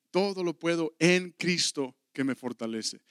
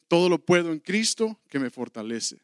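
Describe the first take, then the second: First: Said in the usual way. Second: "puedo" pushed out louder as the verse is proclaimed; ringing scripture quote; emphatic verse. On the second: Shown as a demonstration. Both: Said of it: "repeated verse".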